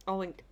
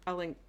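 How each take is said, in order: Both takes have the same delivery.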